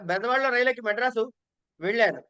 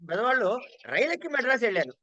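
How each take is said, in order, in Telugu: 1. చివరి క్రియ vellanu పై ఒత్తిడి ఉంది. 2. రైలెక్కడం అనే పదంపై ఒత్తిడి ఉంది. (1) "ఆఖరికి వెళ్లారు" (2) "రైలుకి ఇంపార్టెన్స్ అండి"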